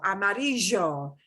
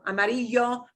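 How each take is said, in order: First: The ll has a strong Buenos Aires sound. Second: The ll is a soft y sound. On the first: The speaker calls it wrong. "somebody from uh, Buenos Aires would pronounce that color yellow as amarillo" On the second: The speaker calls it right. "a straight y sound is good, a little bit of a j, but not strong. ... those are okay"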